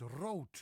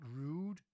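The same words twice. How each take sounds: First: Rood with a long Dutch O; correct Dutch pronunciation. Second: Rude with an English oo vowel; wrong Dutch pronunciation. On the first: Dutch teacher correcting the mistake, properly pronounced rood. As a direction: say rood like rote, rolled out firmly. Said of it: "No, it's rood". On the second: Dutch teacher showing viewers the mistake, mispronounced rude. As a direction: say rude with oo as in food. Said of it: "It's not rude". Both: Shown as a demonstration.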